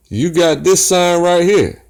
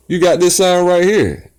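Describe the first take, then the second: No difference in how they are said.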